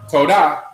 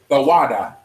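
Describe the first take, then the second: First: It is said with two syllables. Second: It is said with three syllables. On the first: The speaker calls it right. "instead of saying Todah" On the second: The speaker calls it wrong. "they'll say Thawada for thank you, but it's not real"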